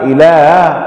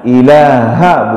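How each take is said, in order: First: The middle consonant is a glottal stop. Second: The middle consonant is a breathy h sound. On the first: The speaker calls it wrong. "dua-duanya dibaca hamzah ataupun alif" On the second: The speaker calls it right. "ilaha bukan ilaha"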